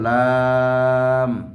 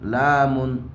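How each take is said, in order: First: The word ends on a bare m sound. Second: The word ends with an added -un sound. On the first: The speaker calls it right. "এক একটা হরফের শেষে জজম" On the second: The speaker calls it wrong. "অনেকে এভাবে করে"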